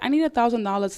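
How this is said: It is said in a soft, gentle way. The request invites willing help. The speaker calls it right. "you need to be soft and gentle"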